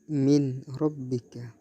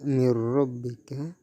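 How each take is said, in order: First: The n is pronounced separately before the r. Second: The n merges fully into the following r. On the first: The speaker calls it wrong. "bukan min rabbika" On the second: The speaker calls it right. "dibaca mir rabbika"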